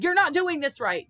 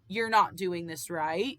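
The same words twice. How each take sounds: First: It is said in a harsh, scolding tone. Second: It is said in a calm, neutral tone. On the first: The speaker is being talked down to. The speaker calls it wrong. "The tone you just said" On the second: A simple correction is given respectfully. The speaker calls it right. "instead of saying"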